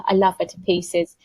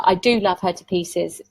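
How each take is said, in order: First: Said in the usual way. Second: "do" leaned on firmly; stress on do. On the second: Shown as a demonstration. Correcting herself about her gran, stress on "do". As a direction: press the word "do" to insist. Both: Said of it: "there's no but".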